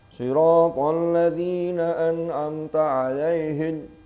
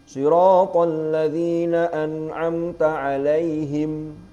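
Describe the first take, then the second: First: The final m is said without closing lips. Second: The final m is said with closed lips. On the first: The speaker calls it wrong. "mime gak iso mingkem" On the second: The speaker calls it right. "Gurunya sudah ngajar begitu fasoha"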